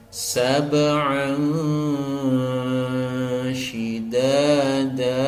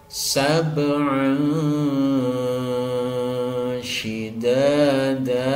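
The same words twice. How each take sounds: Both takes have the same delivery.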